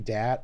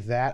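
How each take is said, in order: First: It begins with a hard 'd' sound. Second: It begins with a soft 'th' sound. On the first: "I say dat" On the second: "apparently I don't say that"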